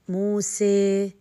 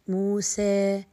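First: The final vowel leans strongly toward ee. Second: The final vowel leans slightly toward e. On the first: "عندما زدت في انفراج الفم من الجوانب... فأتت معايا الإمالة" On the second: "عندما قللت بالفتحة نوعا ما ابتسامة قليلة، أتى معايا اللي هو التقليل"

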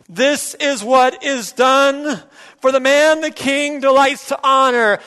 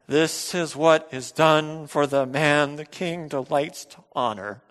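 First: It is said louder than before. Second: It is said plainly at normal volume.

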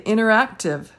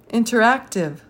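First: The first T sound is left out. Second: The first T sound is clearly pronounced.

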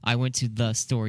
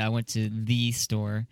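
First: The word 'the' is said like 'thuh'. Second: The word 'the' is said like 'thee'. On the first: The speaker calls it right. "when you're reading the in a sentence" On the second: The speaker calls it wrong. "You don't say"

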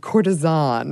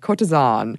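First: The word is said in a plain English way. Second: The word is said with a fancy French-style accent. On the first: The speaker calls it wrong. "I realized I didn't put the right accent with it" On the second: The speaker calls it right. "you gotta say it fancy"

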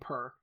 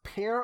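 First: The vowel sounds like the one in 'purr'. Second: The vowel sounds like the one in 'pair'. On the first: The speaker calls it wrong. "I kept saying per" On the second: The speaker calls it right. "It's pronounced pear"

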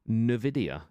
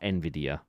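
First: The name is said the American way. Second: The name is said the British way. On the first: "I watch anyone from the US and it's Nvidia" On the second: "Whenever I watch anyone from the UK, they say Nvidia"

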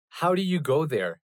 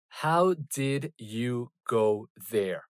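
First: The middle words are run together and reduced. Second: The middle words are pronounced fully and separately. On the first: "it's way more common to hear people saying" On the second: "Instead of saying"

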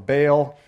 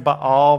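First: The word is pronounced the English way. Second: The word is pronounced the Hebrew way. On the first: "more of the English way of saying it" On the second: "that's the Hebrew pronunciation"

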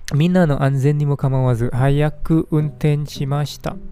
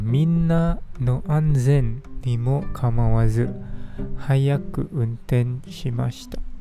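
First: It is said at normal speed. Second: It is said more slowly.

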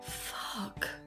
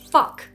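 First: It is said in shocked disbelief. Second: It is said as an angry outburst.

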